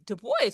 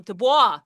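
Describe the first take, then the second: First: Put-on "Du Bois" as doo-BOYS; Anglo pronunciation. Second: "Du Bois" as doo-BWAH; French pronunciation. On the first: Shown as a demonstration. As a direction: say "Du Bois" the English way, rhyming with voice. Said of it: "he's an Anglo pronunciation of his French last name". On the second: Retold or imitated. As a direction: say "Du Bois" the French way, silent final s. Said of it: "I hear so many people saying".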